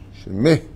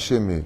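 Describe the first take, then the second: First: The word ends with an audible H sound. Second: The word ends without an audible H sound. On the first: The speaker calls it right. "le dagesh dans le hé" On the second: The speaker calls it wrong. "pas shemé"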